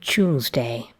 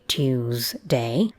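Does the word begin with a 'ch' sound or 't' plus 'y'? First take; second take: ch; t plus y. First: It begins with a ch sound like choose. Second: It begins with t followed by a y sound. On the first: "identical with choose"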